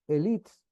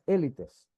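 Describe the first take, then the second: First: The word is said with a French pronunciation. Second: The word is said with a Spanish pronunciation. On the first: "voz francesa" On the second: "voz castellana"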